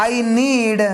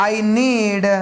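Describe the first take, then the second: Both takes have the same delivery.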